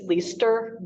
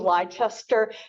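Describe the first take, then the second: First: The name is said the British way. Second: The name is said the American way. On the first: "I think it's Leicester" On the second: "because we're Americans and we don't always use the British pr- pronunciations"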